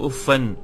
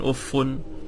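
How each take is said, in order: First: The word ends with a doubled f and an. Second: The word ends with a doubled f and un. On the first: "bitasydid al-fa wa nasab wa tanwin" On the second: "tasydid al-fa, marfu'a, munawwana"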